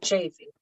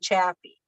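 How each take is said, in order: First: The first vowel is a long A. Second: The first vowel is a short A. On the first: This is how the name is actually said. The speaker calls it right. "It's a long A" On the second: This is the common mispronunciation. The speaker calls it wrong. "Everybody says it with a"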